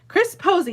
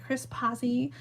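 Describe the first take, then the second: First: The surname's first vowel sounds like 'oh'. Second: The surname's first vowel sounds like 'ah'. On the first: The speaker calls it right. "like the flower" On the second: The speaker calls it wrong. "am I saying that right?"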